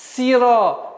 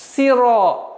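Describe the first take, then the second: First: The vowel after s is a clear i. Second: The same.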